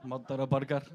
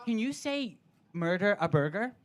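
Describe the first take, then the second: First: Low, deadpan Scottish "Murder a burger"; Scottish party trick, wearily obliged; Scottish accent. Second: Mock American accent on "murder a burger"; eager American asking a party trick; Tyler. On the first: Retold or imitated. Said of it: "ask me to say stuff". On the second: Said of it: "it's Americans asking me".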